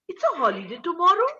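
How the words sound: The ending is stretched and sounds surprised. The news was never expected. "your ending gets stretched and surprised"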